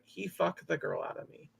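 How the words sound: It is said in a very sad tone. The speaker calls it right. "it's more like ... Very sad tone"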